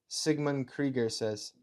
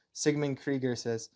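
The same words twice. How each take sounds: The two takes are said the same way.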